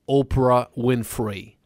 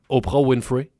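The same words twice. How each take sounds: First: The name is said with an English accent. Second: The name is said with a French accent. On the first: The speaker calls it right. "faut que tu le dises en anglais. C'est bon, ça" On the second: The speaker calls it wrong. "Non, faut que tu le dises en anglais"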